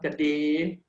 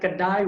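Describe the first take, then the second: First: The word ends in an e sound. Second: The word ends in an ai sound. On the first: This is how the speaker's community says it. "kedai will become kede" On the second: This is the standard form. "the ai sound at the end will become your ay sound"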